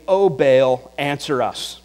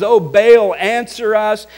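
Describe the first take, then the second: First: Said in the usual way. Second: Loud, desperate cry, higher; crying out loudly. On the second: Retold or imitated. Prophets of Baal crying to their god, loud. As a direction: call out to a silent god. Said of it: "crying out with loud voices".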